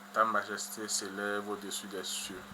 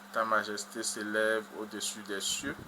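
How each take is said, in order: No difference in how they are said.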